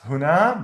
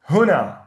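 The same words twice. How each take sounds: First: The stress is on the second syllable. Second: The stress is on the first syllable. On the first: The speaker calls it wrong. "not huna" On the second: The speaker calls it right. "We put the stress on the first syllable"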